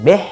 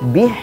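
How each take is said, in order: First: The vowel is slanted toward an e sound. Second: The vowel is a full, clear i sound. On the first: The speaker calls it wrong. "kasroh bacaannya miring" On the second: The speaker calls it right. "kasrohnya sempurna"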